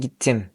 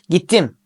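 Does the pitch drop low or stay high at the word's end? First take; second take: drop low; stay high. First: The pitch drops low at the end. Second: The pitch stays high at the end. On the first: "gittim olarak düşürüyorum" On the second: "ilkinde gittim yapıyorum"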